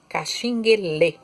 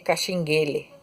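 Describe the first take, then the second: First: The final syllable is read with the accent. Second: The final syllable is read without the accent. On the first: The speaker calls it right. "é caxinguelê, com acento" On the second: The speaker calls it wrong. "não se lê caxinguele"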